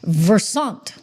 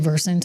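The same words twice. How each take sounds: First: The name is said with a French-style pronunciation. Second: The name is said with a plain English pronunciation. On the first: "I'm trying to give it a little French spin" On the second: "It's actually Versant"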